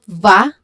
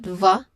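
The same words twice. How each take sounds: First: The vowel is a full, clear sound. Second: The vowel is a weak, reduced schwa. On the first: The speaker calls it wrong. "it's not va" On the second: The speaker calls it right. "but va"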